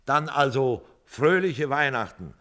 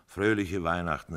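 First: Loud cheerful toast, higher; hearty toast. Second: Said in the usual way. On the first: A narrator's reading. Joe toasting his friends, loud and cheerful. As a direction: raise a glass and toast loudly. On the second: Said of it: "riefen wir alle".

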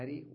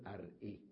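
First: "أري" as a-rii, no stop after r; hamza dropped. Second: "أرئي" as ar-'ii, glottal stop after r; original form with hamza. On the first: Teacher giving the imperative, "أري" without middle hamza. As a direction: run r straight into long ii in "أري". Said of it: "فحذفت أيضًا". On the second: Teacher showing the form not said, hamza kept in "أرئي". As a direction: break "أرئي" with a hamza before final ii. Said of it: "ولم نقل أرئي". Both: Shown as a demonstration.

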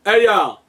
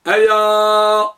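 First: Said in the usual way. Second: أيا with the last "aa" held very long and louder; drawn-out final alif. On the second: Shown as a demonstration. Teacher making the alif audible, final vowel held long. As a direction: stretch the end of أيا on one high, sustained note. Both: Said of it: "بالألف".

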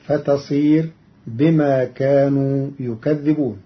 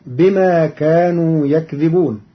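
First: يكذبون with u on the ي and a doubled, held ذ; يكذبون with a stressed double ذ; yukadhdhibun reading. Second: Said in the usual way. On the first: Shown as a demonstration. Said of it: "وفتح الكاف وكسر الذال المشددة". (يكذبون بضم الياء وتشديد الذال) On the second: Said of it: "قرأ قالون كلمة يكذبون".

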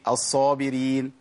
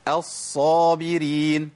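First: الصابرين with a single short ص, no doubling; rushed saad. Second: الصابرين with the ص held long and doubled, slow; doubled saad. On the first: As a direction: run through the ص in الصابرين. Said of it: "ناس كتيرة بتقول إيه". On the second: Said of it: "الصاد مشددة اهي". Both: Shown as a demonstration.

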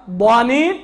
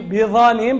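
First: ضانين opening on a heavy emphatic "d"; ḍād in ضانين. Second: بضانين said as بظنين, with emphatic "dh"; ẓā' in بضانين. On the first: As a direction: slowly say ضانين with a clear ḍād. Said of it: "مش كيما ضانين هو ببخيل". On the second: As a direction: slowly say بضانين with an interdental ẓā'. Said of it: "بضانين بالضاد متهم". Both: Shown as a demonstration.

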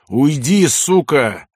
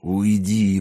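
First: High, raised, angry dismissal; sharp angry outburst; furious. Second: Low, hoarse, drawn-out dismissal; strained, hoarse low order; wheezing. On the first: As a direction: hurl it at her in rage. Enraged man drives her off. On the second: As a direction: croak it out weakly. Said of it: "прохрипел он". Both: A narrator's reading.

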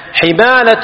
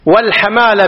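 First: حمالة with an i after the ح; kasra on الحاء. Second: والحمالة with an a after the ح; fatha on الحاء. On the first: Teacher repeats the sword word, حمالة with kasra. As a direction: say حمالة as "himala". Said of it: "السيف بالكسر". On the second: Teacher explains blood-money liability, والحمالة with fatha. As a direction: say والحمالة as "wal-hamala". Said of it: "بفتح الحاء". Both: Shown as a demonstration.

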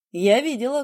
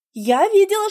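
First: Said in the usual way. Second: Видела said high and loud, with weight; stress on видела. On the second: Acted. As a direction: lean hard on видела, pitched up. Heroine stresses what she saw.

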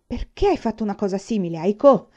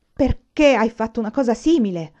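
First: Snapped question. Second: Loud, angry demand; sudden yell. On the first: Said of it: "scattò". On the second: Father suddenly yelling at his thieving son, loud angry demand. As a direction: bellow the question. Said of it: "urlò improvvisamente suo padre". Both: A narrator's reading.

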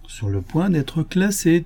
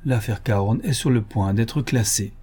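First: Classée slowed and higher, leaned on; insistent repeat. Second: Said in the usual way. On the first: Acted. Lupin insists to doubting Ganimard, slower and higher. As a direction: press Sur le point d'être classée slowly, higher. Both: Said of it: "te dis-je".

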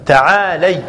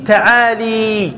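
First: تعالي said ta'ālay, ending in "ay"; correct fatha form. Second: تعالي drawn out slowly as ta'ālī, ending in "ee"; kasra on the lam. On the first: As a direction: keep the lam of تعالي open, gliding to "ay". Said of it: "الصحيح والفصيح أو الأفصح". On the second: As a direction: stretch the "lee" at the end of تعالي. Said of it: "من يكسر اللام". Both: Shown as a demonstration.

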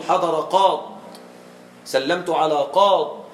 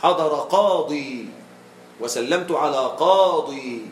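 First: Long aa then stop dead on the Dad of "قاض"; no ee and no n after "قاض"; pausal, yaa dropped. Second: Slow, drawn-out final ee in "قاضي"; pausal, yaa kept. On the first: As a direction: end "قاض" on a bare consonant Dad. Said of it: "بحذف الياء مع التسكين". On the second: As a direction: end "قاضي" on a long ee. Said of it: "ويجوز قليلا بإثبات الياء". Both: Shown as a demonstration.

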